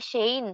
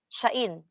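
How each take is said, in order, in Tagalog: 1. Ang salita ay binibigkas na parang 'shane'. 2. Binibigkas ang salita na may dalawang magkahiwalay na patinig. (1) "hindi shane" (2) "kung gusto natin ng proper pronunciation talaga, shain yung madidinig natin"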